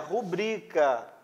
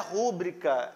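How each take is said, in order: First: The stress is on the second syllable. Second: The stress is on the first syllable. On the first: The speaker calls it right. "é rubrica. Palavra é paroxítona e não proparoxítona" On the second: The speaker calls it wrong. "não é rúbrica"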